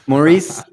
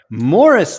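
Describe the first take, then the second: First: The name is pronounced like Maurice. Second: The name is pronounced like Morris. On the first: The speaker calls it wrong. "I've been announcing his name every week as Maurice" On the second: The speaker calls it right. "I think he pronounces it Morris"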